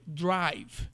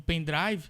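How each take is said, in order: First: "drive" slow, with a strong, explicit English R; English pronunciation. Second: "pendrive" said the Brazilian way, with a light Portuguese R; Portuguese pronunciation. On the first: Teacher shows how English speakers say it, strong R. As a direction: lean on the R in "drive", American-style. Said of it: "O R tem que ser bem forte". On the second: Teacher cites a borrowed word, Portuguese pronunciation. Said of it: "aqui eu tô falando em português". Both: Shown as a demonstration.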